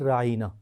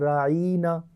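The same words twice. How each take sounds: First: The word is said in its plain form. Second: The word is said in an altered form. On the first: Please have regard for us. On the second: Our shepherd, said as a mockery.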